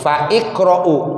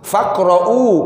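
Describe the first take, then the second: First: An 'i' vowel is heard between fa and qra'u. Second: Fa runs straight into the q sound. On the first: "kalau mau disambungin fa iqra'u" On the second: "fa-nya langsung ke qaf"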